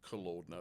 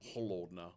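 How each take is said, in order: First: The word starts with a hard k sound. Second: The word starts with a breathy h sound. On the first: The speaker calls it wrong. "it's not pronounced kolodna" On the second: The speaker calls it right. "it's holodna"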